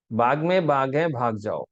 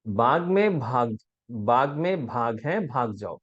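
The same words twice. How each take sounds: First: "బాగ్" im zweiten Wort unbehaucht als bag gesprochen, falsch; "భాగ్ మే బాగ్" with plain b for tiger; wrong pronunciation. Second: "భాగ్" aspirated as bhag, slowly and clearly; correct pronunciation. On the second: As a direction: say "భాగ్ మే భాగ్" with breathy bh on tiger. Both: Shown as a demonstration. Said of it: "దీంట్లో exact right answer ఇదండి".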